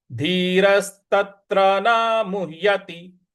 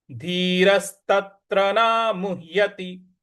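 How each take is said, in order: First: धीरस्तत्र न मुह्यति with a firm न; recitation demo. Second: Said in the usual way. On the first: Shown as a demonstration. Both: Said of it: "इस प्रकार से".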